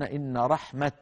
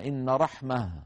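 First: The final word ends with a t sound. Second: The final word ends with an h sound.

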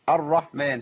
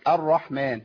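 No difference in how they are said.

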